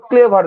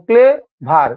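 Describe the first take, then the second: First: Said in the usual way. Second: clever split in two slow beats, clay, ভার; syllable by syllable. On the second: Shown as a demonstration. Teacher showing students clever takes two tries, slowly syllable by syllable. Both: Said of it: "clever দুবার লাগছে".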